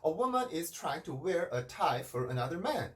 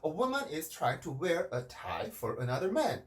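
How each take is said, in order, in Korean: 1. 음높이가 끝까지 한 톤으로 유지돼요. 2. 음높이가 변하고, 강조하는 단어 하나에서 톤이 내려가요. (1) "이렇게 얘기를 해주는 것보다" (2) "훨씬 더 소리가 살아있다라는 느낌이 들죠"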